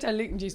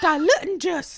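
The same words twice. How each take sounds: First: It is said in the speaker's natural accent. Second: It is said in an exaggerated put-on Scottish accent. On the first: "I said diluting juice" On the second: "she kind of puts on a bad Scottish accent"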